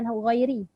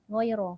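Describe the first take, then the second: First: The word ends with an i vowel. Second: The word ends with an a vowel. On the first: The speaker calls it wrong. "bukan ghairi" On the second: The speaker calls it right. "ghaira bukan ghairi"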